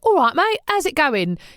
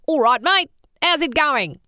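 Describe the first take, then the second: First: It is said in a Cockney accent. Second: It is said in an Australian accent. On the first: "a Cockney accent" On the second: "screw your face up a bit as if you're squinting against the sun"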